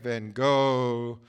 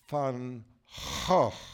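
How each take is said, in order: First: The G is a hard stop sound. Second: The G is a rough guttural sound. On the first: The speaker calls it wrong. "so there's in America" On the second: The speaker calls it right. "It's the guttural"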